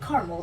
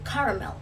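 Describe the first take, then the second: First: The word is said with two syllables. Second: The word is said with three syllables.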